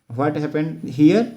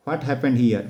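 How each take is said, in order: First: Slowly, each word spaced, rising at the end; slow model question. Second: Said in the usual way. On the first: Shown as a demonstration. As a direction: draw the question out for the class. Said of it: "teacher models question slowly". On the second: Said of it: "teacher repeats question normally".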